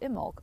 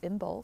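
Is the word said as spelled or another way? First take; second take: another way; as spelled. First: The word is said differently from its spelling. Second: The word is said just as it is spelled. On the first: The speaker calls it right. "she is pronouncing it correctly as Imbolc" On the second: The speaker calls it wrong. "I am pronouncing it phonetically as Imbolc"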